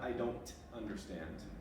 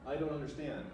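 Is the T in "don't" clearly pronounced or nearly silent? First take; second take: clearly pronounced; nearly silent. First: The T in don't is clearly pronounced. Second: The T in don't is almost silent. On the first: The speaker calls it wrong. "It's not" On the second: The speaker calls it right. "we often almost reduce that T down to nothing"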